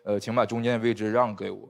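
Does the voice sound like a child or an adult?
adult. It is said in a normal adult voice.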